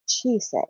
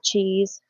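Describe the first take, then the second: First: The name is pronounced the Japanese way. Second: The name is pronounced like the English word cheese. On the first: The speaker calls it right. "it's actually Japanese" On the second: The speaker calls it wrong. "it's not cheese. No matter how much you want to pronounce it like American spelling"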